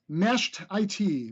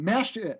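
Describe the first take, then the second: First: The last part is spelled out as letters. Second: The last part is said as one word. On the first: The speaker calls it wrong. "I read that one wrong" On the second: The speaker calls it right. "Mashed it, not mashed I T"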